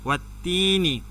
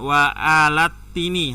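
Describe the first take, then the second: First: Wa runs straight into tini, no al. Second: An extra al syllable comes before tini. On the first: The speaker calls it right. "Jadi bacanya watini langsung" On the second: The speaker calls it wrong. "Jadi bukan wa alatini, ha, salah"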